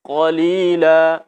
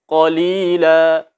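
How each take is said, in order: Both takes have the same delivery.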